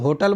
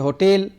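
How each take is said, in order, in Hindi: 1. यह हिंदी उच्चारण के साथ बोला गया है। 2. यह अंग्रेज़ी उच्चारण के साथ बोला गया है। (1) "हम लोग होटल बोलते हैं" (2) "इंग्लिश में कहेंगे होटेल"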